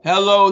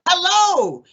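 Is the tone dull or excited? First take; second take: dull; excited. First: It is said in a flat, lifeless tone. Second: It is said in a warm, excited tone.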